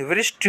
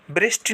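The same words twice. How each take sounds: First: वृष्टि as "vrish-ti"; correct v sound. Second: वृष्टि as "brish-ti"; wrong b sound. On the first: Teacher giving students the right form, clear v. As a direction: start वृष्टि with v. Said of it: "होता है". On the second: Teacher showing students the mistake, b substituted. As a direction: start वृष्टि with b. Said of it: "नहीं". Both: Shown as a demonstration.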